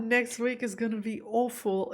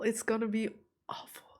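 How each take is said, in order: First: Said in the usual way. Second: Softer, whispered repeat of "awful". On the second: Real, not acted. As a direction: breathe "It's gonna be awful" to yourself. Repeats her fear, then whispers.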